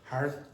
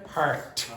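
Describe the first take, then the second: First: The word ends without any t sound. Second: The word ends with a clear t sound. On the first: The speaker calls it wrong. "it was not a t at the end, it was like heart" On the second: The speaker calls it right. "how do you pronounce that?"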